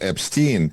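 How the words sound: The name is said with English pronunciation. "in English he's"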